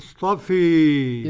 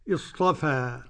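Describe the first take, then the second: First: The final vowel leans strongly toward e. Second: The final vowel is a fully open a. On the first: "الإمالة" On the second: "يبقى الفتح"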